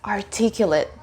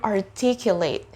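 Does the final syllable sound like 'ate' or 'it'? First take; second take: it; ate. First: The last syllable has a reduced, weak vowel. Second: The last syllable has a full 'ate' vowel. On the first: The word is used as an adjective. "that's an adjective in the sentence" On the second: The word is used as a verb. "Now let's have the verb"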